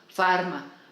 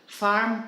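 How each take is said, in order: First: The word ends with an added vowel sound. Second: The word ends on a consonant sound. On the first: "ellos pues le añaden una A" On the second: "pues no dicen farm"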